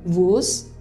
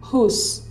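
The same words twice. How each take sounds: First: The initial W sound is pronounced. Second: The initial W sound is silent. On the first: The speaker calls it wrong. "bukan whose" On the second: The speaker calls it right. "tapi whose"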